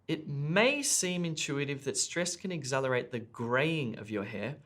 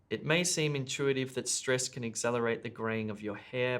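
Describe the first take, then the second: First: Key words are emphasized, giving a clear rhythm. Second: It is read flat with no emphasized words. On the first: The speaker calls it right. "the bold words indicate the words you should stress" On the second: The speaker calls it wrong. "a bad example with no sentence stress"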